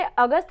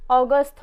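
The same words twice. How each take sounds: First: अगस्त with a flat 'a' like the Hindi month; अगस्त read with an open a sound; wrong pronunciation. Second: अगस्त with a rounded 'aw', like 'aw-gust'; अगस्त starting on a rounded o sound; correct pronunciation. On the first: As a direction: say अगस्त as 'aa-gust', the way kids misread it. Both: Shown as a demonstration. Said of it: "but इसको सही pronunciation क्या होगा".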